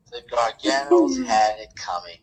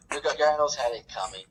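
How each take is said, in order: First: Garganos stretched slow and louder; emphatic repeat. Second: Said in the usual way. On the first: Shown as a demonstration. Gloating co-host repeats his verdict, leaning on "Garganos". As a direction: lean hard on "Garganos" the second time.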